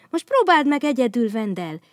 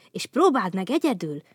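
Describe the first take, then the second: First: "próbáld meg egyedül" higher and louder, cheering; eager agreement. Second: Said in the usual way. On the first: Acted. Bogyó backing Babóca, loud cheering "próbáld meg egyedül". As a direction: urge him on brightly. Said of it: "helyeselt Bogyó". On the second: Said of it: "mondta Babóca".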